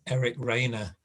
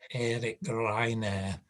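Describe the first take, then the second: First: The name is said with an English accent. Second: The name is said with a Spanish accent. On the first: "so I tend to just say Eric Rayner" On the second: "I don't say Eric Rayner... that's how they speak"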